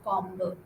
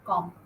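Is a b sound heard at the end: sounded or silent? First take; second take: sounded; silent. First: A b sound is pronounced at the end. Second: The word ends without any b sound. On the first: The speaker calls it wrong. "You don't say combo" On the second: The speaker calls it right. "Say com"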